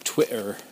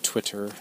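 First: The middle t sounds are dropped or softened. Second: The middle t sounds are clearly pronounced. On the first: "as I start dropping the T's. I say Twitter" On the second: "instead of Twitter"

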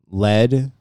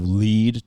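First: The vowel is short, like 'led'. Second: The vowel is long, like 'leed'. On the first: It names the metal. "Lead, metal" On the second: It means to go first in front. "you lead to start off in front"

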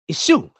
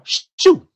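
First: The name begins with a vowel before 'shu'. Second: The name begins directly with the 'sh' sound. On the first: This is the likely original pronunciation. "So this force is in Kemet" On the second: This is the common scholarly pronunciation. "That's how most scholars they just say Shu"

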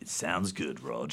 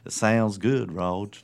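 First: It is said in the speaker's ordinary accent. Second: It is said in a put-on Southern US accent. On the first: The speaker calls it right. "that was not my southern accent" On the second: The speaker calls it wrong. "That's my southern accent"

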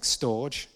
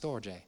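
First: The word is said as one syllable. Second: The word is said as two syllables. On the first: The speaker calls it wrong. "it looks like storge" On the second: The speaker calls it right. "It's not, it's storge"

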